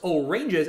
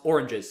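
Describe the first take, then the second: First: It sounds like 'oh' plus the word 'ranges'. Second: It is said as the usual fruit name. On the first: The speaker calls it wrong. "it's not pronounced oranges" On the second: The speaker calls it right. "it's pronounced oranges"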